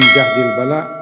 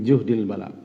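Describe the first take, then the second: First: The first vowel is an open 'a' sound. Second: The first vowel is a rounded 'u' sound. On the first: A very heavy, wearying trial. "Bedanya kalau baris atas, syiddah wa masyakkah" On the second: A trial one can hardly bear. "Kalau juhdil bala, hampir-hampir tidak mampu memikulnya"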